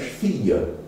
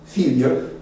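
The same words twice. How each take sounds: First: Fille with a silent l, FEE-yuh; French pronunciation. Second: Fille with the l sounded, FEEL-yuh; patois pronunciation. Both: Shown as a demonstration. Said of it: "but in French, fille".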